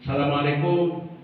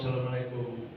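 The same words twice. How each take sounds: First: Said in the usual way. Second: Quiet timid knock-at-the-door greeting; a poor man calling meekly at night; softer beggar's salam. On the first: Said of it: "gembel minta uang". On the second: Acted. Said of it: "ada seorang minta-minta".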